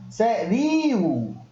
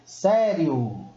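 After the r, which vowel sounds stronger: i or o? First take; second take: i; o. First: The i after the r is strong and full. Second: The o is strong; the i glides weakly. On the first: The speaker calls it wrong. "se for o I forte, eu teria que pronunciar assim" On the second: The speaker calls it right. "a gente pronuncia sério ... muito mais o O do que o I"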